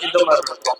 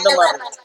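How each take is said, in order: First: The voice is processed to sound deep and bassy. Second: The voice is processed to sound high like a child's. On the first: "base voice பாத்தீங்கன்னா இந்த மாதிரி இருக்கும்" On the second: "சின்ன பசங்க voice மாதிரி"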